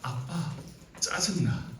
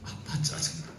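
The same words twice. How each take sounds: First: First take of the line. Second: Second take whispered. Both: Shown as a demonstration. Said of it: "다섯 글자예요".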